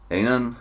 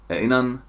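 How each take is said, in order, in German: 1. Die Laute werden locker abgeschwächt. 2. Die Laute werden locker abgeschwächt.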